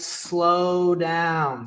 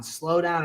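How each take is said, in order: First: Very slow, elongated "slow down"; drawn-out slow. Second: Said in the usual way. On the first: Shown as a demonstration. Coach urging viewers to ease off, drawn-out slow. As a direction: stretch SLOW and DOWN out long. Acts out his advice to slow.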